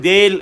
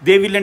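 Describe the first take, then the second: First: The two words merge into one syllable. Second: Both words are said in full.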